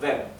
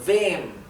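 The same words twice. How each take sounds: First: The vowel is said short. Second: The vowel is said long. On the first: The speaker calls it wrong. "No estoy diciendo wem" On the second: The speaker calls it right. "Estoy pronunciando la E más larga"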